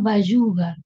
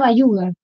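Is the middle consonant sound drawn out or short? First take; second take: drawn out; short. First: The middle consonant is dragged out slightly. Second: The middle consonant is a short plain y. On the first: This is how people from Mendoza say it. "los mendocinos por ahí tienen como un Bayugar, ahí lo arrastran un poquito" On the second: This is how people from Córdoba say it. "en Córdoba dicen con Ye"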